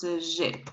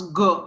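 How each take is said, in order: First: G said as soft "zh"; G with no hard g, just zh; soft French G. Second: G said as hard "go". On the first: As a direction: make G a soft zh, "zhay". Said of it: "you need to pronounce G". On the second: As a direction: make G a hard g, like "go". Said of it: "That's why you pronounce G". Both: Shown as a demonstration.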